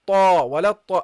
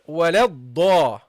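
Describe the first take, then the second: First: The doubled consonant is an emphatic t sound. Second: The doubled consonant is an emphatic d sound. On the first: The speaker calls it wrong. "Don't say وَلَطَّا, If you put your tongue, guys, forward too much, then you get the ta sound" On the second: The speaker calls it right. "so you go here"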